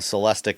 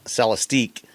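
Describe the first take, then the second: First: The name ends with a short 'ick' sound. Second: The name ends with a long 'eek' sound. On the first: "You've already said it's celestic" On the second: "some people have said, you know, Celestic is Cele- Celestique"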